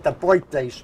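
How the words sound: It is said with a New York accent. The speaker calls it wrong. "With a New York accent, I usually say"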